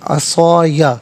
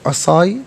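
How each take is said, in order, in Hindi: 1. शब्द खुले 'ya' स्वर से खत्म होता है। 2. शब्द बंद 'y' ध्वनि पर खत्म होता है। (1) "अलग या अलग अलग पढ़ेंगे" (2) "यहाँ वक्फ पढ़ेंगे तो"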